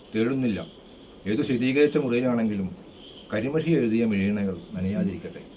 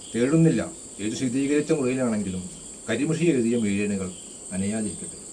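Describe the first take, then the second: Both takes have the same delivery.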